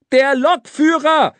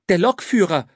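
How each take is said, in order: First: Loud, high exasperated repeat; high-pitched yell; boy shouting. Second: Said in the usual way. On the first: A narrator's reading. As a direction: shout the answer so it gets through. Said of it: "schrie der Junge".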